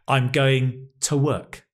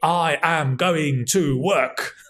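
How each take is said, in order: First: It is contracted, with a weak unstressed 'to'. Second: Every word is said fully, without contraction. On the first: It sounds like ordinary everyday speech. The speaker calls it right. "That's what you would actually hear" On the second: It sounds old-fashioned and overly formal. The speaker calls it wrong. "probably only a Roman emperor would say"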